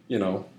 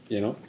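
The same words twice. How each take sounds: No difference in how they are said.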